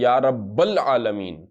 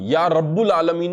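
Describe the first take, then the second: First: The vowel after 'rabb' is 'a'. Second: The vowel after 'rabb' is 'u'. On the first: The speaker calls it right. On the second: The speaker calls it wrong.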